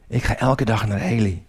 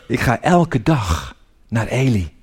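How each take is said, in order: First: Said in the usual way. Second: Slow, lower, with pauses between phrases; slow, deliberate. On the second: Acted. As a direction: spell it out slowly, phrase by phrase. Deliberate first take, then repeated quicker. (langzaam en nadrukkelijk)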